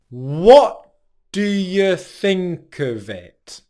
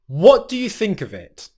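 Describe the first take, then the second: First: The sentence is spoken slowly. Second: The sentence is spoken at natural speed.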